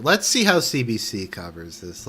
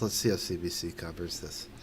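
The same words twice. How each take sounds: First: Said in the usual way. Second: Softer, lower mutter to himself; muttered repeat. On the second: Shown as a demonstration. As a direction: mumble it under your breath.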